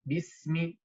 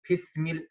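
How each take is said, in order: First: The first sound is a voiced b. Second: The first sound is a voiceless p. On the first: The speaker calls it right. "No, bismi" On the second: The speaker calls it wrong. "We don't say pis, pismil"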